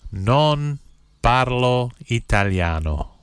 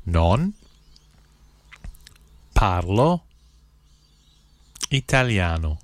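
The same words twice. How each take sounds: First: Said in the usual way. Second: Each word set apart by long pauses; one word, pause, next word; slow, word by word. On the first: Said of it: "I'll say the phrase". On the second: Shown as a demonstration. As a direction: spell it out slowly for learners to repeat. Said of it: "then I'll say one word at a time slowly".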